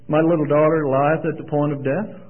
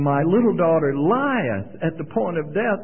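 First: It is read flatly, like a computer readout. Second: It is read with strong emotion and feeling.

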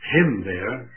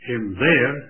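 First: The stress is on the first word. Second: The stress is on the last word. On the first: "Whether you place the emphasis on the first word" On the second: "or the emphasis on the last word"

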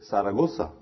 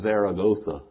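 First: The z is said like an s sound. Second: It is said with an American English accent. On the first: "they say it just like you say the S sound" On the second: "We don't say like Americans"

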